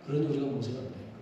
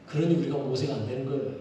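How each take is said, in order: First: 한 번 더, 작고 빠르게 혼잣말처럼; softer and quicker, as if to oneself; quieter, faster repeat. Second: Said in the usual way. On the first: Shown as a demonstration. (조용하고 빠르게 되뇌기)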